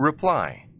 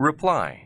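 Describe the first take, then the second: No difference in how they are said.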